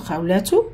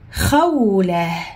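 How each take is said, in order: First: The word ends with a t and vowel. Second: The word ends with a soft h sound. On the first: "Peut-être c'est écrit khawlatu" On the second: "quand on va arrêter sur ta marbouta, on arrête avec ha"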